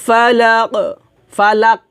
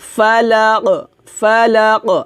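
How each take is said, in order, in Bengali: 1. শেষের q প্রতিধ্বনিত ঝাঁকুনি ছাড়াই থামে। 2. শেষের q প্রতিধ্বনিত ঝাঁকুনি দিয়ে শেষ হয়। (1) "এটা হবে না" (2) "হবে ফালাক ফালাক"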